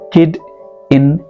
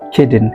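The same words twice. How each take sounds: First: The words are said separately with a break. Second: The final d joins onto the following vowel. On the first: The speaker calls it wrong. "Kid in is wrong" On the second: The speaker calls it right. "This consonant sound goes with this vowel sound"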